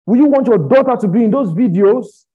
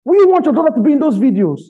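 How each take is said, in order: First: Loud, raised preaching question; heated challenge. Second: Very high, loud, fast shout; outraged shouted challenge. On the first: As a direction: demand an answer loudly, pitched up. Heated challenge, then repeated harder. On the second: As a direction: fire the question out at the top of the voice. Same challenge shouted harder. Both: Real, not acted.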